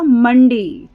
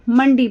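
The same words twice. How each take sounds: First: Mandi said slowly and clearly, like a dictated word; teacher dictates Mandi for the children to circle, stressing it slowly; slow dictation stress. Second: Said in the usual way. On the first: Shown as a demonstration. Teacher dictating Mandi to the class, slow and clear. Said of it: "तो आप मंडी पर घेरा लगाओगे". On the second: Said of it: "अब teacher ने बोला मंडी".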